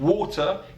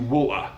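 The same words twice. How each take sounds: First: The middle T is clearly pronounced. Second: The middle T becomes a glottal stop. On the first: "turn water into" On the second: "the glottal T"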